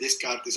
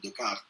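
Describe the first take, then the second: First: The name is pronounced with Spanish sounds. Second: The name is pronounced with French sounds. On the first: It is how people say it locally. "aquí se dice Descartes" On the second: It keeps the name's original form. "a mí me gusta mantener la pronunciación originaria"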